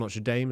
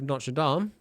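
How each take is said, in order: First: Notre Dame is pronounced the American way. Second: Notre Dame is pronounced in a non-American way.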